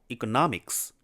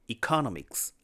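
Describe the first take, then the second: First: The stress falls on the standard syllable. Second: The stress falls on a nonstandard syllable. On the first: The speaker calls it right. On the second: The speaker calls it wrong.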